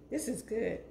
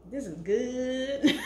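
First: Said in the usual way. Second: Slow, drawn-out laughing delight; savoring with a laugh. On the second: Real, not acted. Tasting her food for viewers, slow laughing delight. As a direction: stretch it out, laughing with pleasure.

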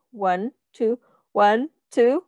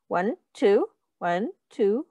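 Both takes have the same delivery.

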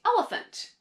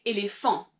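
First: ELEPHANT said the English way, stress on the first syllable; English pronunciation. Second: ÉLÉPHANT said the French way, stress on the last syllable; French pronunciation. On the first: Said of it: "in English, you would say". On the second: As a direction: say éléphant in French, leaning on the final nasal -phant. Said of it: "in French, you would say". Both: Shown as a demonstration.

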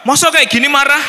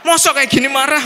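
First: Much higher, much louder indignant retort; angry protest. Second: High, loud indignant retort; angry protest. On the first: In-law insisting she isn't angry, loud and high. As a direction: fire it back, offended. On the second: In-law repeating the protest, loud and high. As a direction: repeat it, still offended. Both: Retold or imitated. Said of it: "Nah itu marah gitu".

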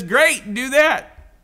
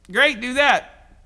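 First: Bright, loud, quick go-ahead; upbeat approval. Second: Stretched-out slow "Great, do that"; slow emphatic repeat. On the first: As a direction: cheer him on, higher and louder. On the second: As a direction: lean on each word, slowly and loud. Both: Retold or imitated. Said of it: "And Jesus basically says".

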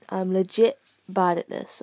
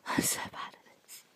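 First: Said in the usual way. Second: Embarrassed whisper to yourself. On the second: Real, not acted. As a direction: breathe it out, ashamed. Embarrassed aside after dying.

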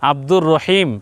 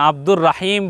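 First: "রহিম" begun with rounded ro; usual rounded ro. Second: "রাহিম" begun with open raa; wrong open ra. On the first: Teacher showing how we say the name, rounded ro. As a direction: say "Abdur রহিম" as Abdur Roheem. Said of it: "আমরা কি বলি?". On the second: Teacher showing a name nobody says so, open ra. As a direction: say "Abdur রাহিম" with raa, not ro. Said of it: "বলি না". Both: Shown as a demonstration.

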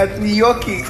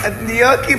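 First: Said in the usual way. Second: Laughing pun. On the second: Real, not acted. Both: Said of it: "את לא ספגטי ואת לא ניקי".

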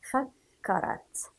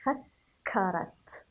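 First: "فكرت" said slowly aloud, the doubled كاف pressed; slow voiced model. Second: "فكرت" whispered slowly, the كاف pressed; whispered model. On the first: Teacher repeats the word aloud after whispering it. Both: Shown as a demonstration. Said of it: "فنضغط عليها قليلًا".

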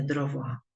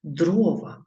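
First: "дрова" stressed at the end, dro-VA; wrong stress on last syllable. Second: "Дрова" stressed at the start, DRO-va; correct stress on first syllable. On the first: Teacher citing the mistake to avoid, final-syllable stress on "дрова". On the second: Teacher showing pupils the correct form, first-syllable stress on "Дрова". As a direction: hit the O in "Дрова". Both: Shown as a demonstration. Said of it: "а не дрова".

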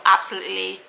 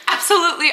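First: Low, quick ABSOLUTELY; oddly said. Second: ABSOLUTELY redone higher and louder; corrected retake. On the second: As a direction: say ABSOLUTELY afresh, pitched up and emphatic. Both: Real, not acted. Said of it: "why did I say it like that?".

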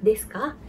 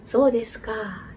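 First: "desu ka" with KA lifted at the end; "desu ka" ending on a rising, questioning KA; rising question intonation. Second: Slow "So desu ka" with KA falling; "So desu ka" as a realization, KA going down; falling intonation on ka. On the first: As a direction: ask "desu ka" as a question, KA going up. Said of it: "yang beda adalah intonasinya". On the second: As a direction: draw out "So desu ka" and let KA drop, not asking. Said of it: "Jadi ka-nya itu turun". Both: Shown as a demonstration.

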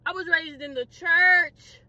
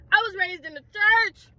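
First: Slow, stretched-out indignation; drawn-out protest. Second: High, indignant cry; indignant protest. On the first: Preacher's kid facing arrest, slowly drawn-out protest. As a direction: drag the words out for emphasis. Second take, dragged out. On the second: Preacher's kid facing arrest, high-pitched indignation. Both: Acted.

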